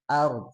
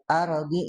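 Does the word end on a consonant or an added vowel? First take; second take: consonant; vowel. First: The word stops on the final d sound. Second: An extra vowel is added after the final d. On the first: The speaker calls it right. "jangan tapi ard" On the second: The speaker calls it wrong. "jangan di arodi"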